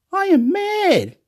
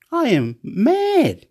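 First: Much higher and slow, near a yelp; wild excitement. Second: High, slow, emphatic declaration; excited. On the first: Telling the camera he's mad, yelping high. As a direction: let it fly up, stretched out. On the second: Telling the camera he's mad, excited. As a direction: drag out the words, buzzing. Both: Real, not acted.

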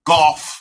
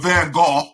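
First: Golf as the name Gogh said "goff", ending in f; pronunciation shown. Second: Gogh said "go", with no final consonant; pronunciation shown. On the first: Teasing the co-host over the painter's name, golf said as "goff". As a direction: close golf on a clear f, like "goff". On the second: Teasing the co-host who corrected him, Gogh said as "go". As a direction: say Gogh as "go", open vowel ending. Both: Shown as a demonstration. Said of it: "corrected my pronunciation of Van Gogh".

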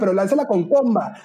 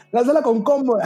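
First: Retold shout, pitch up high; a high-pitched retold call to protesters on the street; mock call-out. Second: An even higher, keener retold call to the protesters; bigger mock call-out. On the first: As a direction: call it out like advice yelled from a balcony rail. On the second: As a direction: repeat "lánzala" even higher, more insistent. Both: Retelling shouting advice at protesters.

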